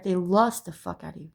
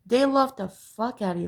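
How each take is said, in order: First: "lust" punched as the correcting word; stress on lust. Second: "love" given the weight of the line; stress on love. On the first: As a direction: lean on "lust" to mark the difference. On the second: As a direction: lean on "love" to set up a contrast. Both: Shown as a demonstration. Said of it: "There's a difference".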